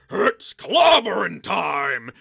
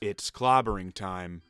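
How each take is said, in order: First: The line is screamed loudly. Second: The line is said flatly and quietly.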